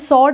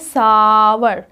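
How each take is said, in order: First: The word rhymes with 'more', one syllable. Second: The word sounds like 'sow-er', an 'ow' vowel. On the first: The speaker calls it wrong. "इसको सॉर नहीं बोलेंगे" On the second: The speaker calls it right. "आप इसको बोलेंगे सावर"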